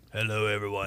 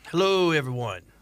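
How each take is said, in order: First: The voice is pitched lower and deeper. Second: The voice is at its normal pitch.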